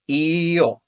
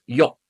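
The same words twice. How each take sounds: First: I-yo with a long ee sliding into oh; "i-yo" as drawn-out eeee-yoh; two vowels slowly joined. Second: Yo as one short syllable, yoh; "yo" said yoh, with no separate ee; merged diphthong. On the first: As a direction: stretch the i of "i-yo" before gliding to o. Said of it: "if we practice them together". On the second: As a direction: blend i and o into a quick "yo". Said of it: "which becomes yo". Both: Shown as a demonstration.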